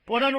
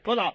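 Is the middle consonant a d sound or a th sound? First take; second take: d sound; th sound. First: The middle consonant is a hard d sound. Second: The middle consonant is a soft th sound. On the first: "போடான்னு கூட சொல்ல தெரியாது" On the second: "மழலை மொழியில"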